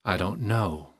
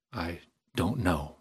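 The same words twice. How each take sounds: First: Said in the usual way. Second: Slow, halting and subdued; hesitant repeat. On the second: A narrator's reading. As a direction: draw it out slowly with a pause after "I". Same answer repeated, more hesitantly.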